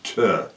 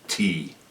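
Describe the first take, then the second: First: It is said as the bare consonant sound. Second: It is said as the full letter name. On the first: The speaker calls it right. "it's T" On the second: The speaker calls it wrong. "You don't say the first letter how you would pronounce it"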